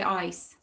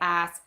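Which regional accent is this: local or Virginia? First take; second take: local; Virginia. First: The word is said in the local accent. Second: The word is said in a Virginia accent. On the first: "Here we say ice" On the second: "in some parts of Virginia, they say ice"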